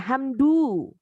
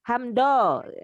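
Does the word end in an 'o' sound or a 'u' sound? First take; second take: u sound; o sound. First: The word ends in a 'u' sound. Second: The word ends in an 'o' sound. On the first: The speaker calls it right. "ya hamdu" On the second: The speaker calls it wrong. "Jadi bukan lol, hamdo"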